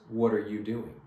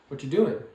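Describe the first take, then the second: First: Every word, including "are", is clearly pronounced. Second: The word "are" is dropped entirely. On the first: "I could see somebody saying th- these exact words" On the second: "many times it does sound like this"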